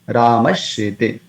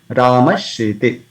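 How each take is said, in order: Both takes have the same delivery.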